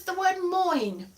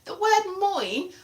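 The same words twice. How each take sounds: First: Moin said slowly, drawn out; the Welsh word moin, spoken deliberately; saying moin. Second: Moin said again, higher and slower; the Welsh word moin again, with a rising lift; repeating moin. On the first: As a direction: give moin a slow, careful read. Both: Shown as a demonstration.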